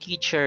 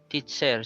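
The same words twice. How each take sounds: First: The middle sound is CH. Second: The middle sound is TS.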